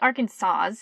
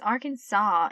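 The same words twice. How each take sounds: First: The word ends sounding like 'Kansas'. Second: The word ends sounding like 'saw'. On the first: The speaker calls it wrong. "You don't say Arkansas" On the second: The speaker calls it right. "It's Arkansas"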